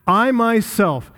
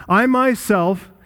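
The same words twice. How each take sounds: First: "I" drawn out and stressed, "myself" lighter; emphatic I myself. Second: "myself" drawn out and stressed, "I" lighter; emphatic myself. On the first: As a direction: stress on "I" in "I myself", slow and higher. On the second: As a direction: stress on "myself" in "I myself", slow and higher. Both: Shown as a demonstration. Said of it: "It's emphatic there".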